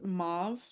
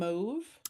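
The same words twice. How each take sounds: First: The vowel sounds like the one in suave. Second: The vowel sounds like the one in stove. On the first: "the way that I pronounce mauve" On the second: "instead of saying mauve"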